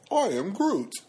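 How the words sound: It is said in a happy way.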